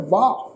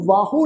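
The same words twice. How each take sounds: First: ਵਾਹ as one long syllable, "vaa"; correct pronunciation. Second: ਵਾਹੋ as "vaa-ho"; ਵਾਹੋ in two quick syllables; wrong pronunciation. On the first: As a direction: say ਵਾਹ with the final u silent. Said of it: "ਇਹ ਸ਼ਬਦ ਹੈ ਵਾਹ". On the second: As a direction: say ਵਾਹੋ with a sounded o at the end. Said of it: "ਵਾਹੋ ਨਹੀਂ pronounce ਕਰਨਾ". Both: Shown as a demonstration.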